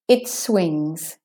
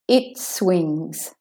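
The two takes are said the same way.

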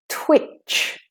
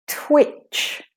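Both takes have the same delivery.

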